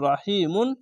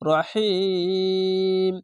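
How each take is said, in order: First: The word ends with an added 'un' sound. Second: The word ends abruptly on the 'm' sound. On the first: The reading carries on past the verse end. The speaker calls it wrong. "রহিমুন না বলে" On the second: The reading stops at the verse end. The speaker calls it right. "শেষ অক্ষরে সাকিন দিয়ে"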